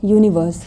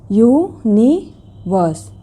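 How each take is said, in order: First: Said in the usual way. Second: यूनिवर्स very slowly as yu... ni... vus; long gaps between the three beats of यूनिवर्स; syllable by syllable. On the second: Shown as a demonstration. Teacher demonstrating the last example, word broken in three. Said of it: "three syllables".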